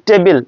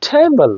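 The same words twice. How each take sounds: First: টেবিল with a plain T, no puff; unaspirated T. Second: টেবল with a puffed T like ঠ; aspirated T. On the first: Teacher showing the wrong take, unaspirated টেবিল. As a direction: keep the T of টেবিল breathless. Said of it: "not টেবিল হবে টেবল". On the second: Teacher correcting table for students, aspirated টেবল. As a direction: stretch টেবল after a burst of breath. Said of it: "ঠর উচ্চারণ হবে". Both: Shown as a demonstration.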